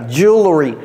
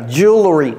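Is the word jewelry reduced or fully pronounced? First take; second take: reduced; reduced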